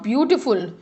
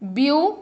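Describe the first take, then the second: First: Said in the usual way. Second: Beautiful broken into syllables. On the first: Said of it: "three syllable words". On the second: Shown as a demonstration. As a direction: split beautiful syllable by syllable, with pauses. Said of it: "learning a word by breaking them".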